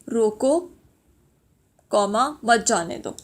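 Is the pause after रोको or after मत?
after रोको. There is a pause right after रोको.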